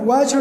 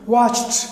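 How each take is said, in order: First: The ending is pronounced as a d sound. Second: The ending is pronounced as a t sound. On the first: The speaker calls it wrong. "वॉचड नहीं है, डा ये pronounce नहीं होगा" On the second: The speaker calls it right. "Very soft, ठ ठ pronounce होगा"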